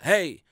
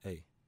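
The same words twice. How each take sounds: First: The word is said loudly. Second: The word is said quietly. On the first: This is how the voice usually does not sound. The speaker calls it wrong. "It's not loud a lot of times. It's not" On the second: This is how the voice usually sounds. The speaker calls it right. "It's a very small voice. A lot of times it's"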